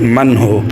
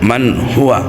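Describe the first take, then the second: First: The phrase ends cut short without -wa. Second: The phrase ends with a full -wa sound. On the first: The reader stops at this point. "এই জায়গায় যদি থামেন তাহলে কি হবে" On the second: The reading continues past this word. "ওয়াও জবর ওয়া"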